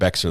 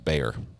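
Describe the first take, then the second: First: It is said with a clear 'x' sound. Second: It is said like 'bear', without an 'x'. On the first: The speaker calls it wrong. "I pronounced it Bexar the first time, and I got corrected right away" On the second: The speaker calls it right. "and it was Bayer"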